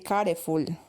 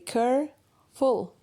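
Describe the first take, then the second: First: The word is split into three syllables. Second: The word is said in two syllables. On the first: The speaker calls it wrong. "But you don't say careful" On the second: The speaker calls it right. "You have two different syllables, not three"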